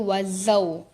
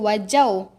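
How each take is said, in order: First: The middle consonant is a z sound. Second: The middle consonant is a j sound. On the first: The speaker calls it right. "Dia wazau" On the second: The speaker calls it wrong. "supaya kita tak terbaca wajau"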